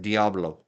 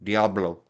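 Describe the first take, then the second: The two takes are said the same way.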